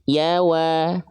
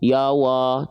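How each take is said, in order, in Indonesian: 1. Vokalnya tipis dan terbuka, seperti a. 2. Vokalnya tebal dan membulat, mengarah ke o. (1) "Huruf ya-nya tetap tipis, huruf waw-nya tetap tipis"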